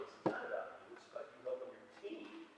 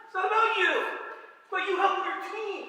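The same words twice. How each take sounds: First: Softer, near-whispered reminder; hushed. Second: High, loud hammed-up shout; mock yell. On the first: Shown as a demonstration. Coach quietly reminding his players it's about the team, hushed. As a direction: drop to a hush to drive it home. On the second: Coach shouting at his hitter that it's about the team, loud and high. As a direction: shout it at the player like a fired-up coach. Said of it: "Excuse me, I didn't say that".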